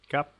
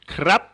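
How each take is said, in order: First: The r sound after the k is dropped. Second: The r sound after the k is pronounced. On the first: This is the usual everyday form. "the R gets reduced to kap" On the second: The situation is serious and solemn. "how it would be said in very, very s- serious, solemn situations"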